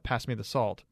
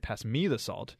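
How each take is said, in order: First: No word is given special emphasis. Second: The word me is given emphasis. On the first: It is a plain request for the salt. "that means pass me the salt" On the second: The salt should go to the speaker, not someone else. "it means don't pass it to Matt"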